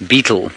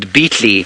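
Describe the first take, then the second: First: The word ends with a soft 'ul' sound. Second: The word ends with a clear 'lee' sound. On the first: The speaker calls it right. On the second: The speaker calls it wrong.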